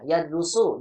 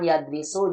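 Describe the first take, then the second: First: The second syllable has the vowel u. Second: The second syllable has the vowel i. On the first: The speaker calls it right. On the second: The speaker calls it wrong. "jangan yadrisu"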